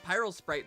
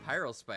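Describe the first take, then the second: First: The last part is said 'sprite', with an r. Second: The last part is said 'spite', without an r. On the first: The speaker calls it wrong. "I've been pronouncing it Spy- Pyrosprite this entire fucking time" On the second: The speaker calls it right. "Yeah, Pyrospite"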